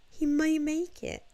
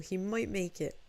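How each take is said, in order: First: High, louder burst of hope; mock hopeful. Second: Said in the usual way. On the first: Streamer retelling her doomed hope for Gundam, mock hopeful. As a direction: lift it high with hammed-up hope. Retold hopeful thought, repeated higher.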